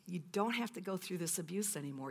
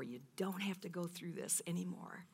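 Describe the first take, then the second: First: Said in the usual way. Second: Whispered, tender repeat of God's words; whispered reassurance. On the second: Acted. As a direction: hush it like a comfort.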